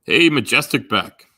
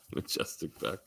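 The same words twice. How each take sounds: First: Loud, slow drawn-out hey to a viewer; calling out greeting. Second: Breathy whisper of the name, rising. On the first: Streamer loudly greets a chat viewer, slow and drawn out. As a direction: call the name out big and slow. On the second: Streamer whispers the viewer's name to himself, rising. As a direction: hush it out like a private aside. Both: Real, not acted.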